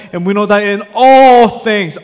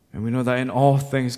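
First: Huge emphatic weight on the word "all"; stress on ALL. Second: Said in the usual way. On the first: Real, not acted. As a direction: preach it loudly, leaning hard on "all". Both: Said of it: "I cannot emphasize that word enough".

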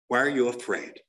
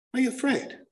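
First: Low, pointed question; grave challenge. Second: High, pointed question; needling challenge. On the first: Speaker challenging those who won't answer questions, grave challenge. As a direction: press them with a low-pitched demand. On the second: Speaker challenging those who won't answer questions, high needling challenge. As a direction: pitch it up to needle them. Challenge repeated in higher pitch. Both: Real, not acted.

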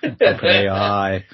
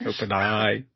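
First: Slow, loud Ali G impression. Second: Lightly voiced Ali G impression; a hint of Ali G's accent. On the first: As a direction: stretch it out like Ali G. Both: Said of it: "like Ali G's".

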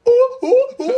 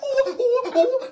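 First: High, loud monkey ooh-ooh; howler monkey roar. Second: High monkey ooh-ooh; howler monkey hoots. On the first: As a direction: hoot like a round-faced monkey. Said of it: "and he goes". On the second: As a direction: hoot high like a hungry monkey. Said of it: "he's like". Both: Retold or imitated.

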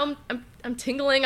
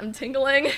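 First: Repeating I'm nervously; stuttering. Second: Said in the usual way. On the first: Retold or imitated. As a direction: stammer the start, dazed. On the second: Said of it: "I was like".

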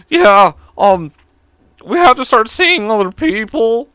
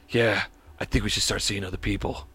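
First: Much higher and louder, slow and stiff; uncool original take. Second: Low, soft, laid-back breakup line; cool guy voice. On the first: Retold or imitated. The real breakup call to his girlfriend, high and awkward. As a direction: blurt it out high and awkward like a nervous teen. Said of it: "it wasn't cool ... It was more like". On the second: Shown as a demonstration. Telling his girlfriend it's over, cool and low. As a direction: play it smooth and unbothered. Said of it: "this cool guy voice".

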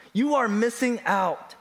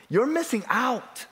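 First: "are" said in full and leaned on; stress on ARE. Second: Said in the usual way. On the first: Real, not acted. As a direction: spell out "are" with firm emphasis. Repeats it with the verb uncontracted.

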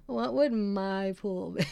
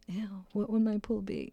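First: Slow, giggling through the words; real laugh breaking the question. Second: Said in the usual way. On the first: Real, not acted. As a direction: repeat it while cracking up. Cracks up at own joke.

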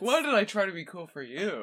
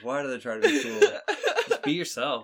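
First: High, laughing life-lesson line; laughing motto. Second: High squeaky laughing delivery; laughing motto. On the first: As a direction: read it like a cheesy wall sign, laughing. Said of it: "That's like a life lesson". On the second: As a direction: giggle through a mock life lesson. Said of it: "I think that's a better life lesson". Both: Pretend.

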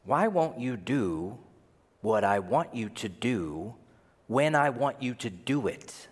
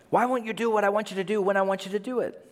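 First: Deliberate demand. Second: High, fast whine in one breath; rapid-fire nagging. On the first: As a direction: spell out the demand piece by piece. First, spelled-out take of the demand. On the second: Believer nagging Jesus weekly, high and rushed. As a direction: rattle off the demand without pausing. Second, hurried take of the demand. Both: Acted.

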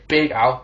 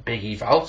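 First: "Big Al" corrected, Al as a short "al"; correct name. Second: "Big Eval" said by mistake, Eval like "ee-vel"; slip of the tongue. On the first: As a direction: fix it to "Big Al". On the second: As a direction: blurt out "Big Eval" as a name mix-up. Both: Real, not acted. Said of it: "sorry, Big Al".

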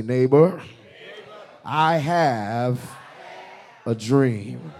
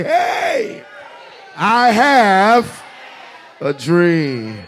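First: Loud. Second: High, loud yell across the room. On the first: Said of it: "tell your neighbor loud". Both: Shown as a demonstration.

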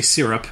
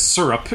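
First: "syrup" with first vowel as in "seer"; family's own pronunciation. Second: "syrup" with first vowel as in "sir"; father's pronunciation. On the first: Shown as a demonstration. Contrasting with his father, "syrup" as "seer-up". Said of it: "we always say syrup". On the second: Retold or imitated. Quoting his father's Connecticut habit, "syrup" as "sir-up". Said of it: "he says syrup".

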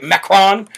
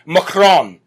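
First: Macron with a clear "MACK" first syllable; "Macron" tried out as MACK-rawn; questioning pronunciation. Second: Macron with a reduced first syllable, muh-KRON; "Macron" leaning on a drawn-out second syllable; French-style pronunciation. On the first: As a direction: say Macron as MACK-rahn, unsure. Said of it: "Is that how you say it". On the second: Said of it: "However you say it with a French accent". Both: Shown as a demonstration.

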